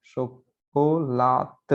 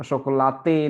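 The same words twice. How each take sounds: First: शोकोलात said slowly with a clipped final t; slow, careful शोकोलात with no e at the end; teaching the correct Portuguese form; right Portuguese pronunciation. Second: शोकोलाते said with an open final te, marked as wrong; teaching a wrong pronunciation. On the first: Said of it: "लेकिन पुर्तगाली में ये शोकोलात है". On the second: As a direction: say शोकोलाते the Spanish way, ending in te. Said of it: "नहीं पढ़ेंगे". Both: Shown as a demonstration.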